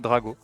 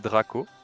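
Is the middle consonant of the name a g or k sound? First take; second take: g; k. First: The middle consonant is a g sound. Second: The middle consonant is a k sound. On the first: This is the French form of the name. "en français, c'est Drago" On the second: This is the English form of the name. "en anglais, c'est Draco"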